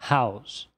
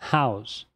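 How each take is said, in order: No difference in how they are said.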